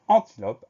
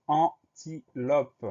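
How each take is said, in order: First: Said in the usual way. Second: "antilope" drawn out slowly in three separate beats; syllable by syllable. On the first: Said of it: "pour le mot". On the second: Shown as a demonstration. Teacher introducing a spelling word, "antilope" slowly syllable by syllable. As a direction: break "antilope" slowly into an, ti, lope. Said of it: "Deuxième syllabe".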